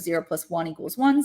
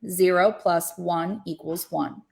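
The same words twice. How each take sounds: First: It is said quickly. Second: It is said slowly.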